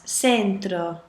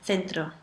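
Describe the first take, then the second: First: The c is said with an s sound. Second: The c is said with a th sound. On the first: This is how it is said in Latin America. "you are going to see the E and I making the C into an S when you travel to Latin America" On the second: This is how it is said in mainland Spain. "instead of"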